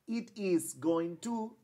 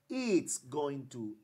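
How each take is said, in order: First: It is is said as two full words. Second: It is is contracted into one syllable.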